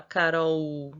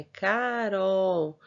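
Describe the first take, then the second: First: Carol run together with the ending stretched out; wrong syllable split. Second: Carol said very slowly, Ca, then rol; syllable by syllable. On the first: Teacher showing pupils how not to say Carol, ending stretched. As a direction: say Carol undivided, lengthening only its last sound. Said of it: "A gente não fala Carol". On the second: Teacher correcting for pupils, Carol in slow separate syllables. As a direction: draw Carol out in two clear syllables. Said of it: "é Carol". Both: Shown as a demonstration.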